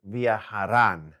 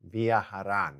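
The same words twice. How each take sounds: First: Viajarán said slowly, stress on rán. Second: Said in the usual way. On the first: Shown as a demonstration. Teacher modelling the plural form slowly. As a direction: draw out viajarán for students to copy. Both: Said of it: "at the bottom right".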